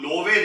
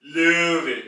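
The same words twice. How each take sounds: First: लोवे with a plain o, not rounded; wrong pronunciation. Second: लेवे said louder, with a rounded ö; correct umlaut pronunciation. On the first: Teacher showing the mistake to avoid, plain o. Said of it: "लोवे नहीं पढ़ेंगे". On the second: Teacher giving the correct umlaut sound, louder. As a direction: model लेवे as the right form. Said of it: "बल्कि लेवे". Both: Shown as a demonstration.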